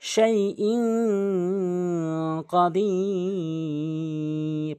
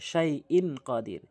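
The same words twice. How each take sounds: First: The n is hidden into a nasal sound. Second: The n is pronounced plainly before qadir. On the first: The speaker calls it right. "নাকের ভিতর নিয়ে পড়তে হবে" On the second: The speaker calls it wrong. "অধিকাংশ লোক শাইইন কাদির বলে"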